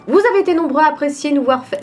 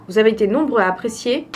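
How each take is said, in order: First: Voice-over read. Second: Said in the usual way. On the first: Shown as a demonstration. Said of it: "Je vais faire mes entraînements de théâtre". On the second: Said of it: "si ma phrase elle est correcte".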